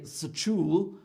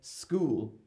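First: An extra sound is said between the 's' and the 'k'. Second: The 's' runs straight into the 'k' sound. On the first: The speaker calls it wrong. "I don't say sachool" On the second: The speaker calls it right. "I say school"

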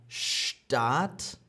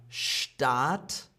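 The two takes are said the same way.

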